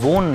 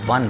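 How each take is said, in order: First: The vowel sounds like the 'o' in bone. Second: The vowel sounds like the 'u' in sun. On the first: The speaker calls it wrong. "इसको वोन नहीं बोलेंगे" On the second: The speaker calls it right. "इसको वन बोलेंगे"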